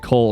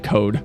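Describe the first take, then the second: First: The L sound is clearly pronounced. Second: The L sound is dropped entirely. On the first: The speaker calls it right. "when I go to say cold" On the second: The speaker calls it wrong. "I just say code"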